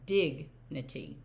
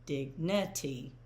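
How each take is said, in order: First: Dignity as "DIG-nuh-tee", slowed; dignity drawn out with the weight on "dig"; stress on DIG. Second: Dignity as "dig-NUH-tee", slowly; dignity drawn out, weight wrongly on "ni"; wrong stress. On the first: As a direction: punch the first syllable of dignity. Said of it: "the stressed syllable is dig". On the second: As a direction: stress the middle syllable of dignity. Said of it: "It's not". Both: Shown as a demonstration.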